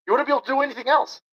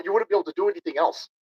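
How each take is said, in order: First: Much higher and faster, incredulous outburst; exasperated repeat. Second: Said in the usual way. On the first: Real, not acted. Ranting streamer repeats point to chat, incredulous higher faster outburst. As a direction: blurt it again in disbelief.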